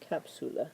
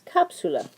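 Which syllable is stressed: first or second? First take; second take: second; first. First: The stress is on the second syllable. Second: The stress is on the first syllable. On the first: The speaker calls it wrong. "we would say this is the vowel second to last, it would be capsula, but it's not capsula" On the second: The speaker calls it right. "we are putting the stress on the first syllable"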